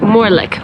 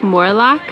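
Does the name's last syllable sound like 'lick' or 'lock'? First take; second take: lick; lock. First: The last syllable sounds like 'lick'. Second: The last syllable sounds like 'lock'. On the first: The speaker calls it right. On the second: The speaker calls it wrong.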